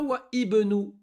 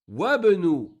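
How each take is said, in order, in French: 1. Une occlusive glottale sépare les deux mots. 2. Les mots s'enchaînent sans occlusive glottale. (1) "On dit pas" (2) "On fait la liaison"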